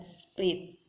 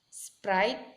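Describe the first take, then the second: First: A vowel is inserted between s and p. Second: It begins with the cluster spr, no vowel. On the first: "mereka menyisipkan sebuah vokal" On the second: "penggabungan S, P, R ... pada awal suku"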